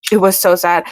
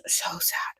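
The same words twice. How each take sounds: First: Said in the usual way. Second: Breathy whispered lament. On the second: Real, not acted. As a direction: whisper it, still shaken. Overwhelmed by sad book ending.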